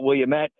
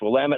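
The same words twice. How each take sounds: First: The word does not end like 'damn it'. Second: The word ends like 'damn it'. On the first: The speaker calls it wrong. "it's not Willamette" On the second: The speaker calls it right. "it's Willamette, like, damn it"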